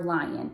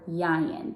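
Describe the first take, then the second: First: The word is said with a clear L sound. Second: The L sounds are replaced by Y sounds.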